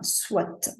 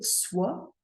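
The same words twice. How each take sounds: First: It ends with a clearly sounded T. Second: It ends on the vowel, with no T sound. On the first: The speaker calls it right. "on a tendance à prononcer le T ... comme s'il y avait un E à la fin" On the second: The speaker calls it wrong. "On va pas vraiment dire soit"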